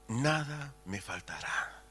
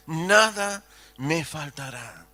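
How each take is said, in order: First: Quiet, slow savouring of the verse; soft recitation. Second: Said in the usual way. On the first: Acted. Preacher reciting the psalm to the church, soft and slow. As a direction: let it settle softly.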